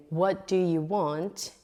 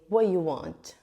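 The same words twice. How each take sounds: First: Said in the usual way. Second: "What you want" run together, no "do"; dropped auxiliary. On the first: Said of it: "instead of saying". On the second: Shown as a demonstration. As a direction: shorten it to "What you want", falling at the end. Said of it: "forgetting to add the auxiliary verb".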